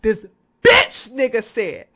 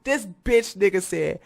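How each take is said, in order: First: Louder, punched correction. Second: Said in the usual way. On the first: Shown as a demonstration. Correcting himself, louder on bitch. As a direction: hit the word bitch hard. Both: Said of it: "Excuse me, that was wrong".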